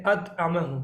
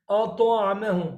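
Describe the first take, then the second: First: "अत आमे हूँ" with a light, flat "त"; common mistake. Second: "तो" in "अ तो आमे हूँ" kept heavy and rounded; correct heavy t. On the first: Retold or imitated. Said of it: "अक्सर लोग पढ़ते हैं". (हल्के "त" वाली ग़लती) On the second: Shown as a demonstration. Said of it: "मैं मिसाल देता हूँ". (भारी "तो" के साथ)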